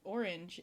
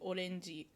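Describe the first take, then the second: First: It is said with an English accent. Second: It is said with a Japanese accent.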